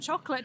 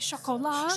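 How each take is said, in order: First: The word is pronounced the plain English way. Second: The word is pronounced the French way. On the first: The speaker calls it right. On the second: The speaker calls it wrong.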